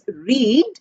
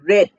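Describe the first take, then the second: First: The vowel is long, rhyming with need. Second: The vowel is short, rhyming with bed. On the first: It is the present tense. "The present tense is pronounced as read" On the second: It is the past tense or past participle. "the past tense and past participle are pronounced as read"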